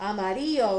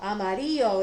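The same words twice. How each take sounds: First: The word is pronounced with Spanish sounds. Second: The word is pronounced with Spanish sounds.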